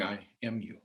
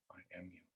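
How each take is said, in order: First: Said in the usual way. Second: I am you, echoed far softer; hushed echo. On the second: Shown as a demonstration. A hushed echo of the ancestors' words to the audience. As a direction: let the repeat fall to a near whisper.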